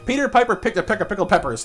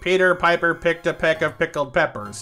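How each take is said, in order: First: It is spoken at a fast, full pace. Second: It is spoken at a slow, easy pace. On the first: "full speed"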